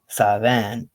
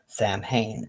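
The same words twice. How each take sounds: First: It uses the Scottish pronunciation of the word. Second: It uses the US pronunciation of the word. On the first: "Samhain in Scotland" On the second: "sometimes Samhain in the U S"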